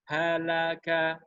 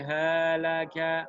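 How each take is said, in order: First: Halaka slow with ha, la, ka held equally long; correct even take. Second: Halaka with the final ka dragged out too long; wrong stretched take. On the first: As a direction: model the right way, all beats equal. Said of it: "Harus sama, harus seragam". (Halaka dibaca rata, ha la ka sama panjang) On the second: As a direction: show the mistake by holding the last syllable. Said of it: "nggak boleh halaka". (halaka salah, suku ka dipanjangkan) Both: Shown as a demonstration.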